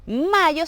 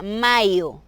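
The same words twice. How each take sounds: First: Said in the usual way. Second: MAYO slowly, as written "maio"; Portuguese mayo. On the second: Shown as a demonstration. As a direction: stretch "mayo" into a careful Portuguese "ma-io". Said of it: "tal y como se escribe".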